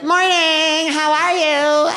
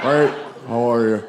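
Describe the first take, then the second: First: Very high, drawn-out hello; mock-cheery greeting, pitched way up; chirpy parent greeting. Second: Creepy weirdo hello, pitched down; Buffalo Bill. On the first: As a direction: sing it out like an overfriendly parent. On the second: Retold or imitated. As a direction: answer deep and off-putting to repel them. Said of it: "taking on that voice like Buffalo Bill".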